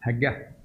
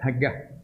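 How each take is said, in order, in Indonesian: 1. Kata itu diawali bunyi h. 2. Kata itu diawali bunyi h.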